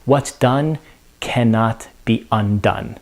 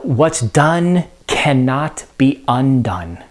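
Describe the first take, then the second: First: Dropping quietly at the end; Lady Macbeth, fading. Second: Slow, grave recitation of the line; Lady Macbeth, slow. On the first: Teacher voicing the broken queen, fading softly. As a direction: let it fall away into regret. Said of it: "And she now says". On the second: Teacher quoting Lady Macbeth to the class, slow and grave. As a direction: let each word sink in slowly. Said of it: "She also says that". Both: Retold or imitated.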